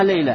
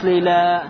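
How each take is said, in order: First: The final vowel is kept short. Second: The final vowel is drawn out long. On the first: The speaker calls it right. "а говоришь сальма лейла" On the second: The speaker calls it wrong. "не говоришь лейла"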